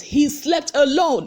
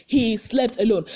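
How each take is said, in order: First: "alone" stressed, slow and higher; emphatic. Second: Said in the usual way. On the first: Retold or imitated. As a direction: lean hard on "He slept alone". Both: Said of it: "he was emphasizing it".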